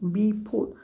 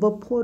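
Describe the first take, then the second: First: The first vowel is a full 'ee' sound. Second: The first vowel is a short reduced 'uh' sound. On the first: This is how it is commonly said in India. "आपण म्हटलं म्हणतो बी फोर" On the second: This is how native speakers say it in running speech. "बघायला गेलं तर बफोर होतं"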